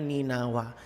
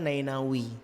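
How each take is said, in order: First: It starts with 'ni' and ends with 'a'. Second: It starts with 'nai' and ends with 'i'. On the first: This is the reading the literature supports. The speaker calls it right. "literatur yang lebih tepat bacanya Ninawa" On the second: This is another reading some people use. The speaker calls it wrong. "Ada juga yang mengatakan cara bacanya Nainawi"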